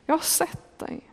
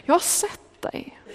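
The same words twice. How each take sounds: First: Very soft and a little higher, a voiced hush; soft murmur. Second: High, hushed whisper of comfort; tender whisper. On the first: Jesus softly repeating his reassurance to Natanael. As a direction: let the words barely carry. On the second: Acted. Jesus whispering comfort to the doubting Natanael. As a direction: breathe the words out, gently and slowly.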